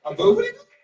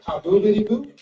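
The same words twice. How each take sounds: First: High squeaky mispronounced name; high rising puzzled "boobity boo"; asking his strange name back in a high voice; puzzled high question. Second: Said in the usual way. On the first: Retold or imitated. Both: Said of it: "What was it?".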